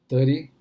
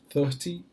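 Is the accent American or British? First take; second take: American; British. First: It is said in an American accent. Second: It is said in a British accent.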